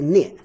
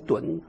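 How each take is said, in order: First: It is said as nian with a fourth tone. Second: It is said as dun with a third tone. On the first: "呢一耶念第四声" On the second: "的乌恩墩三声墩"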